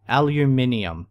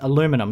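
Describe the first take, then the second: First: The word is said with five syllables. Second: The word is said with four syllables. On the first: The speaker calls it wrong. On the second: The speaker calls it right. "because there's no second I"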